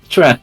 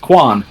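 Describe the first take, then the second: First: The name begins with a 'ch' sound. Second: The name begins with a hard 'k' sound. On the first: The speaker calls it right. "it's pronounced Chuan" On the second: The speaker calls it wrong. "No, it's not"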